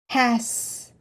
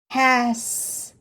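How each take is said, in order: The two takes are said the same way.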